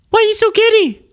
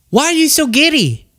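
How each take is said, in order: First: Squeakily high incredulous question; escalating disbelief. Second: High-pitched incredulous question; exasperated. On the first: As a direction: push the disbelief right up into a squeal. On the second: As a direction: ask it in raised-pitch disbelief. Exasperated question to absent Candace. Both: Real, not acted.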